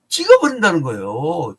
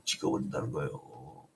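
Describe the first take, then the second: First: Punched-out loud pronouncement; emphatic verdict. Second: Very low, soft echo; hushed repeat. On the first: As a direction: proclaim it forcefully, pitch sweeping down. Preacher proclaims the verdict, then repeats it. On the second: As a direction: drop right down in pitch and volume. Same verdict repeated as a low echo. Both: Real, not acted.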